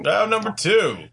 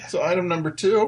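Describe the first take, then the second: First: Higher and louder announcement; announcer echo. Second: Raised, bright announcement; announcer voice. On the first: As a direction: boom it like a show host. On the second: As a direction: announce the next segment. Announcing next topic. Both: Pretend.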